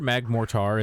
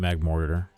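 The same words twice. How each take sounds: First: The ending is not said like the word mortar. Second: The ending is said like the word mortar. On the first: The speaker calls it wrong. "how I pronounced it when uh when like Gen four came out" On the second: The speaker calls it right. "it's probably Magmortar. Because like mortar is a word"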